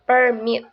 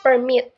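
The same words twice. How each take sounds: First: The stress is on the first syllable. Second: The stress is on the second syllable. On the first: The speaker calls it wrong. "not permit" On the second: The speaker calls it right. "the stress is on the second syllable"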